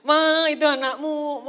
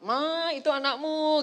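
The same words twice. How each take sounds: First: Slow, much louder shouted call; husband calling wife. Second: Slow, firm call to his wife; louder, slow call across the house; husband calling wife. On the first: Husband shouting to wife about their child, slow loud call. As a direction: shout it across the house, drawn out. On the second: Husband telling wife about their child, slow louder call. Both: Retold or imitated. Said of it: "Pak Eri berkata".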